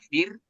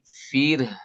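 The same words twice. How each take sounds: First: The ending sounds are weak and hard to hear. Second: The ending sounds are fully and clearly articulated. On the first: The speaker calls it wrong. "Jangan fir" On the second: The speaker calls it right. "tapi fir"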